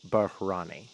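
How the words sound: The name has an exaggerated, foreign-sounding pronunciation.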